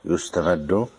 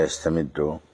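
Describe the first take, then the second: First: "يستمد" as yustamaddu, asked with a rise; passive verb form. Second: "يستمد" as yastamiddu, slowly asked with a rise; active verb form. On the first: Sheikh querying which reading, "يستمد" as rising yustamaddu. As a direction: ask "يستمد" with yu- and -maddu. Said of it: "ولا يستمد؟". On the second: Sheikh querying which reading, "يستمد" as slow yastamiddu. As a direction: ask "يستمد" with ya- and -middu, slowly. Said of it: "الظاهر يستمد". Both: Shown as a demonstration.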